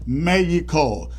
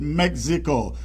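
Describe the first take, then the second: First: It is said with a Mexican pronunciation. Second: It is said with an American pronunciation. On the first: "The Mexicans themselves pronounce it Mexico" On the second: "Americans pronounce it Mexico"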